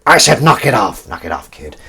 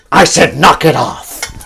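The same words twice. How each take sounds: First: Firm order that drops away to a mutter; lightly voiced Harrison Ford warning; Harrison Ford impression. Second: Slow, louder gruff command; Harrison Ford impression. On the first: A second go at the Harrison Ford line, firmer then fading. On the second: Showing the Harrison Ford impression Emily mentioned, slow firm order. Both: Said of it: "you do a good impression of Harrison Ford".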